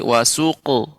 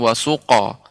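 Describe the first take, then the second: First: The vowel after q is a dark u. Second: The vowel after q is a full o. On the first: The speaker calls it right. "tapi wasuqu" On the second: The speaker calls it wrong. "bukan sampai pada huruf O, bukan wasuqo"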